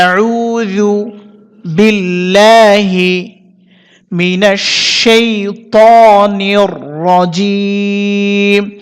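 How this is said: The phrase is broken into pieces with pauses. "ভেঙে ভেঙে একবার বলে দিতেছি"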